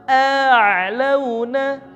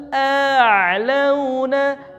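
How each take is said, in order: Both takes have the same delivery.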